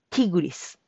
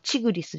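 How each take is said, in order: First: The word begins with a 'ti' sound. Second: The word begins with a 'chi' sound. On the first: This is the form used now. The speaker calls it right. "今はチグリスじゃなくてティグリス" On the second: This is the older form taught in school. The speaker calls it wrong. "チじゃなくてティ"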